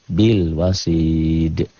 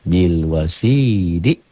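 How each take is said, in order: First: The word ends on a strongly bounced consonant. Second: The word ends on an open vowel. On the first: The reading stops on this word. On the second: The reading continues without stopping.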